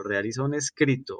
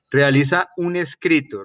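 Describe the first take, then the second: First: A softer echo, stretching the final "escrito"; softer repeat. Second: Firm, raised assignment call, "Realiza" stressed; emphatic instruction. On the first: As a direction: repeat "realiza un escrito" quietly, letting "escrito" trail. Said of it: "ojo pues". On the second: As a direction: announce "Realiza un escrito" with a strong push on "Realiza". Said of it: "que explique en qué consiste". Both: Shown as a demonstration.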